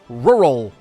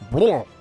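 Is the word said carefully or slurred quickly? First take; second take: careful; slurred. First: The word is said slowly with every sound clear. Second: The word is said fast with its sounds slurred. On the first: The speaker calls it right. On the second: The speaker calls it wrong.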